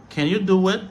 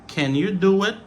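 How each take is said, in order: The two takes are said the same way.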